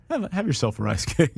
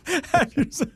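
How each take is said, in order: First: Said in the usual way. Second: "Have yourself" laughed out high and slow; laughing high repeat. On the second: Shown as a demonstration.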